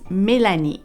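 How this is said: The name is pronounced the French way. "In French, it's Mélanie"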